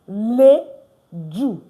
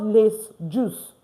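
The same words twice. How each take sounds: First: The S is not pronounced. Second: The S is pronounced. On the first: The speaker calls it right. "I'm not pronouncing the S" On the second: The speaker calls it wrong. "Not les jours"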